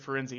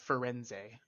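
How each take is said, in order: First: The final vowel is dropped or reduced. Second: The final vowel is pronounced as a clear e. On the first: The speaker calls it wrong. "Where you've been saying is Firenze" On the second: The speaker calls it right. "you pronounce the e like an e"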